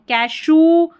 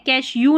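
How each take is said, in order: First: The word ends with a plain 'oo' sound. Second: The word ends with a 'yoo' sound. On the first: The speaker calls it right. "ऊ है" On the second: The speaker calls it wrong. "कैश यू नहीं पढ़ना"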